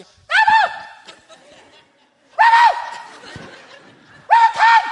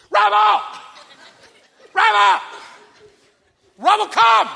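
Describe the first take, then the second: First: Very high squeaky shout; tiny piercing toddler holler; little daughter copying dad. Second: High, loud dog call; repeated booming shouts; really loud voice. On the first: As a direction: squeal the dog call like a three-year-old. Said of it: "Arya comes around the corner". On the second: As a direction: holler across the yard for the dog. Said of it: "I have a really loud voice". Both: Retold or imitated.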